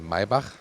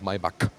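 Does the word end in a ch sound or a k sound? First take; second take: ch sound; k sound. First: It ends in a throaty ch sound. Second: It ends in a hard k sound. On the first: The speaker calls it right. "in Germany we say Maybach" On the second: The speaker calls it wrong. "and not Maybach"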